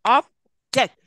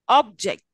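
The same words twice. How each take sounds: First: "Object" in two beats, ob... ject, louder; Object, broken after ob; split into syllables. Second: "Object" as one word, OB louder; Object, noun stress on the first syllable. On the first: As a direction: clap out "Object" with a gap. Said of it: "split it into syllables". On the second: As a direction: hit OB in "Object", joined up. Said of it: "always the first syllable is". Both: Shown as a demonstration.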